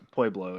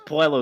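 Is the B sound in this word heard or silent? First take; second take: heard; silent. First: The B sound is clearly pronounced. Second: The B sound is left out. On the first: The speaker calls it right. "everyone knows how to pronounce Pueblo" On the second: The speaker calls it wrong. "The B's silent"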